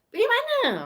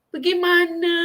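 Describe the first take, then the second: First: It is said in an angry tone. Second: It is said in a gentle, coaxing tone.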